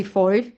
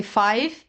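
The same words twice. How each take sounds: First: "five" said as "foive" with oi; vowel of "five" turned to oi; Irish five. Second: Said in the usual way. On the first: Shown as a demonstration. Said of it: "they say". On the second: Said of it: "They don't say".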